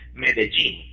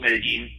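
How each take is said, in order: First: The 'll' sounds like the j in gene. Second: The 'll' does not sound like j in gene.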